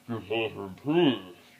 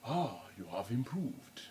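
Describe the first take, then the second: First: It is said imitating Darth Vader's deep voice. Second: It is said in a voice unlike Darth Vader's.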